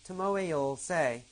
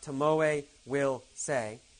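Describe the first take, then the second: First: Will is reduced to a short 'll sound. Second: The word will is said in full. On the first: The speaker calls it right. "did you hear that? Tomoe will say" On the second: The speaker calls it wrong. "not Tomoe will say"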